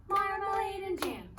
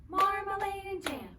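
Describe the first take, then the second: The two takes are said the same way.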